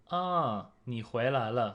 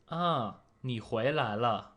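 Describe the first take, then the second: First: 惊讶地说你回来了; surprised ah. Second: "Ah, 你回来了" read clearly as a model; 示范句子; Mandarin example. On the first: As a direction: greet someone back with surprise. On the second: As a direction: model sentence for the learner. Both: Shown as a demonstration. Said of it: "So the first sentence is".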